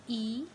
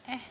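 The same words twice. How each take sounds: First: Long "ee" for E; long vowel E. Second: Short, open "eh" for E; short vowel E. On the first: Teacher shows students the vowel's name, long E. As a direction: say E as the letter name "ee". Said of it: "name of the letters". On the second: Teacher shows students the letter's sound, short E. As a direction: say E as a brief "eh". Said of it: "sound of the letter". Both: Shown as a demonstration.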